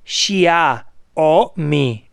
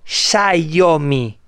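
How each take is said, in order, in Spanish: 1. El sonido de la I va antes que el de la A. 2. El sonido de la A va antes que el de la I. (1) "¿qué dice la marca? X-I-A" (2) "no Xiaomi / pone la A delante de la I"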